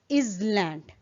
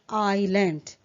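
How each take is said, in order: First: The s sound is pronounced in the word. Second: The s sound is silent in the word. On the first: The speaker calls it wrong. "how it is incorrectly pronounced" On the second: The speaker calls it right. "the correct pronunciation is island, where S is silent"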